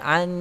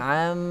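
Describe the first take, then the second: First: The lips stay open, so it ends like n. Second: The lips close, so it ends like m. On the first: The speaker calls it right. "huruf nun tidak perlu didapatkan bibir" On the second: The speaker calls it wrong. "macam am"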